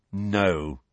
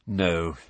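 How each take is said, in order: First: Curt, clipped no; short. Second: Low, weary no; heavy. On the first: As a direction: cut her off briskly. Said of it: "said Ron shortly". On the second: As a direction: sigh it out, resigned. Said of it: "he said heavily". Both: A narrator's reading.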